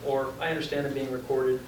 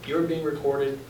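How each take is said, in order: First: I stressed in or I understand, recorded trails down. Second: You're hit hardest, rest falls away; stress on You're. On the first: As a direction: lean on the first I. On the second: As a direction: lean on You're in You're being recorded. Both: Shown as a demonstration. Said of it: "Two different things".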